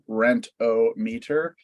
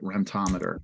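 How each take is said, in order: First: Said as rent-o-meter, with the stress on rent. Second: Said like tachometer, with the stress on tom. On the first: The name is read as three separate parts. "a hyphenated word with dual hyphens around the O" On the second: The name is read as one single word. "it's one word, that's why I call it rentometer"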